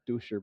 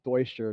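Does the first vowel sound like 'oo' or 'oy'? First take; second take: oo; oy. First: The first vowel sounds like 'oo'. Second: The first vowel sounds like 'oy'. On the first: The speaker calls it wrong. "not Duscher" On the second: The speaker calls it right. "it's Deutscher"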